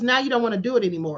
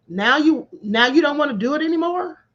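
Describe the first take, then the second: First: It is said as a falling statement. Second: It is said as a rising question.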